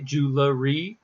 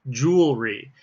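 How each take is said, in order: First: It is said as jew, la, ry. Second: It is said as jewel plus ry. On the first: The speaker calls it wrong. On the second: The speaker calls it right.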